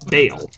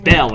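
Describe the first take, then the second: First: The vowel sounds like the one in 'bale'. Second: The vowel sounds like the one in 'bell'. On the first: The speaker calls it right. "it's Bale" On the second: The speaker calls it wrong. "it's not Bell"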